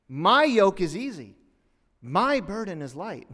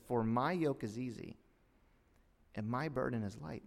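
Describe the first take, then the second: First: "My" punched loud and high in both phrases; stress on My. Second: Said in the usual way. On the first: Shown as a demonstration. Preacher showing the verse is a comparison, "My" stressed loudly. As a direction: hit "My" hard to show the contrast. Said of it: "That statement by itself is a comparison". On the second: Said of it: "he says something interesting".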